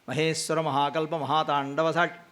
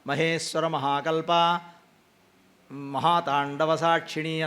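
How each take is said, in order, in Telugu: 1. పదాలను మధ్యలో విరామం లేకుండా కలిపి అంటారు. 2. పదాలను మధ్యలో విరామంతో విడివిడిగా అంటారు. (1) "కలిపి చెప్పాలి" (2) "అన్నామనుకోండి అర్థం చేంజ్ అయిపోతుంది"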